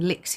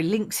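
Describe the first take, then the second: First: "licks" said as a plain licks, with a clear k sound; "licks" with a short i and hard k, no n; misread word. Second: "links" with a nasal ng before the k; "links" said carefully, stressing the n sound; corrected word. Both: Shown as a demonstration. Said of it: "Sorry, links".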